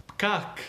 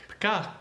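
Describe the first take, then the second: Both takes have the same delivery.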